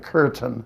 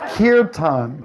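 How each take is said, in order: First: It sounds like the English word curtain. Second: It does not sound like English curtain. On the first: The speaker calls it wrong. "they don't pronounce it like we're going to the curtain" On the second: The speaker calls it right. "It's kirtan"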